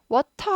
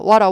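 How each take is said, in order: First: The middle consonant is a clear T. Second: The middle consonant is a soft flap. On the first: "워터 하지 않잖아요" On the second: "워러 하시죠"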